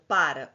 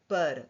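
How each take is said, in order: First: "para" with an open, stressed first a, like "pára"; "para" as the verb, PÁ-ra. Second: "para" with a closed, reduced first a, like "pâra"; "para" as the linking word, vowels reduced; preposition para. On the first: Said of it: "Para é o verbo". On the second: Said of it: "para sair". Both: Shown as a demonstration.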